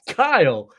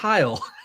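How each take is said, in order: First: The name begins with a K sound. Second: The name begins with an H sound. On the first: The speaker calls it right. "it's Kyle" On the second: The speaker calls it wrong. "not Heil"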